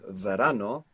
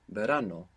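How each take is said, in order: First: It begins with a V sound made with teeth. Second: It begins with a soft B sound made with lips. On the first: "program your mind with verano" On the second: "when you hear verano"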